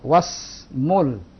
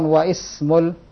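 First: The 'i' is dropped; 'wa' runs into 's'. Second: The 'i' is pronounced between 'wa' and 's'. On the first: The speaker calls it right. "Was langsung, wa langsung ke huruf sin" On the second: The speaker calls it wrong. "Kenapa bukan waismul?"

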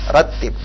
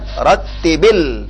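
First: It ends on b with no vowel after. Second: It ends with an i-vowel linking onward. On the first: The word is said on its own. "ratib baris sukun di ujungnya" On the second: The word is joined to the next word. "Kalau disambung bacaan bagaimana? ... Itu diwasal"

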